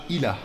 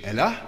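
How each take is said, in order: First: "Ilah" starting with an I sound; Arabic form. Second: "Elah" starting with an E sound; Hebrew form. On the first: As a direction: say "Ilah" with an opening I. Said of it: "im Arabischen Ilah". („Ilah“ mit I am Anfang, arabisch) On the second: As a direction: say "Elah" with an opening E. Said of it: "Also im Hebräischen Elah". („Elah“ mit E am Anfang, hebräisch) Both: Shown as a demonstration.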